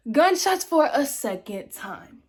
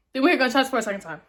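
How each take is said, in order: First: "Gunshots for a second time" word by word, high and drawn out; slow emphatic repeat. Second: "gunshots for a second time" in one fast run; quick announcement. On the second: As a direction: rush through "gunshots for a second time" without pauses. First take, then repeated slowly. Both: Real, not acted.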